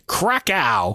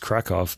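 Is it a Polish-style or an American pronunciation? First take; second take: American; Polish. First: It is said the American way. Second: It is said the Polish way.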